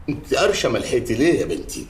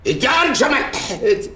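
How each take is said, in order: First: Said in the usual way. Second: Indignant surprise. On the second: Acted. Father protests at accusation.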